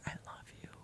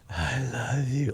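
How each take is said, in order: First: It is said in a shy, timid way. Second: It is said in an intense, creepy way.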